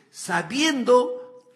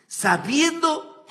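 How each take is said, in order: First: Sabiendo stretched very slow and loud, rising at the end. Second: Sabiendo stretched slow and loud, falling; drawn-out Sabiendo. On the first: Preacher repeats Sabiendo to his listeners, slow rising stress. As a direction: draw Sabiendo out and lift it. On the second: Preacher hammering home Sabiendo to his listeners, slow and loud. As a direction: lean hard on Sabiendo, slowly. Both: Shown as a demonstration. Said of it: "Sabiendo said twice, slowly".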